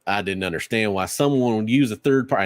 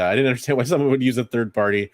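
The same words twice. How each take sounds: First: It is said in a put-on Texas accent. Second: It is said in the speaker's normal accent. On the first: "I got a like a, affected Texas accent here" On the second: "I'll stop being offensive to all Texans"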